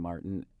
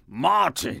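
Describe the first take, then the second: First: The name is said with an American accent. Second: The name is said with a German accent.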